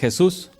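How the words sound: The name is pronounced the Spanish way. This is how Spanish speakers say the name. "a nosotros que hablamos español es Jesús"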